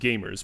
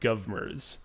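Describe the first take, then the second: First: It is said with a plain 'game' first syllable. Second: It is said as two syllables beginning 'gov'. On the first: The speaker calls it right. "Pronounced gamers" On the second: The speaker calls it wrong. "or govmers"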